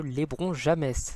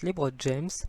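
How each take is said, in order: First: The name is said with French sounds. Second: The name is said with English sounds. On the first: It is a joke. The speaker calls it wrong. "c'est une petite blague" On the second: This is how the name is really pronounced. The speaker calls it right. "je sais que ça se prononce LeBron James"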